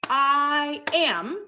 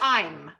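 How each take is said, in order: First: It is said as two separate syllables. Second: It is squeezed into a single syllable. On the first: "here we have two syllables" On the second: "we contract it to one syllable"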